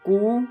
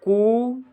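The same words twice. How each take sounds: First: The sound is held only briefly. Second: The sound is held somewhat longer. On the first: "पहले कू" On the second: "फिर करता है कू"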